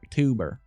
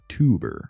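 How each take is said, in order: First: It is said in a Southern American accent. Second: It is said in a Canadian accent. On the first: "I'll do it with a southern accent" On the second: "my Northern Ontarian accent"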